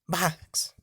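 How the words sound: The word is dragged out with a lazy lag.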